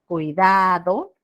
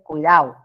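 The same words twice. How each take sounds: First: The d sound is clearly pronounced. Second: The d sound is dropped. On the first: "en lugar de cuidado" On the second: "Dejaron de pronunciar la D"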